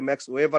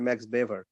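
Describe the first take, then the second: First: The surname begins with a W sound. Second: The surname begins with a V sound. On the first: This is the English way of saying it. "ইংরেজিতে অনেকে" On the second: This is the German way of saying it. "German উচ্চারণে"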